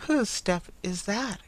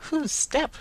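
First: A startled, eager cry, rising on whose; cried out. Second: Sharply higher, puzzled echo; the carrier throws the question back from the doorway. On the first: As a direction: Bertha jumps up and cries out at the sound of a step. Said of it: "cried Bertha". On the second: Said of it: "returned the carrier". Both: A narrator's reading.

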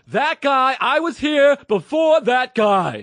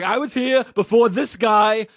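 First: High, loud, slow shouted complaint; angry customer impression. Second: Angry customer. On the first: Customer shouting that he was there first, high slow yell. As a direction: shout the grievance slowly and shrilly. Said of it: "I got it that time". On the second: Retold or imitated. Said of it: "He's like".

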